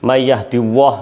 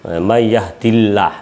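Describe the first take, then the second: First: The l sound is thick and heavy. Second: The l sound is thin and light. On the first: The speaker calls it wrong. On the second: The speaker calls it right.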